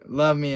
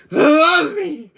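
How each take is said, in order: First: Said in the usual way. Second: High, loud drawn-out cry; dramatic plea. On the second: Acted. Quoting a demand for love, hammed-up loud plea. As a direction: wail it out, hammed up. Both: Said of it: "I'm still gonna use you saying".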